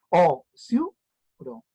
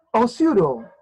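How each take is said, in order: First: "O, siuro" very slowly, o-siu-ro; long pauses between the syllables of "O, siuro". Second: Said in the usual way. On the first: Shown as a demonstration. ("O, siuro" muy lento, separado en o-siu-ro) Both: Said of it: "¿cómo se separa osiuro?".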